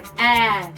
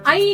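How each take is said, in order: First: The vowel stays a single open 'ae' sound. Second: The vowel glides from 'ah' toward 'ee'. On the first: The speaker calls it right. "तो इसको क्या करना है, ए" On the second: The speaker calls it wrong. "आई नहीं बोलना है"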